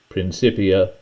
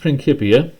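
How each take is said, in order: First: The c is said with a soft S sound. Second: The c is said with a hard K sound. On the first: The speaker calls it wrong. "it looks like it should be said Principia" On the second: The speaker calls it right. "The C was sounded like a K, so that's why I'm pronouncing it that way"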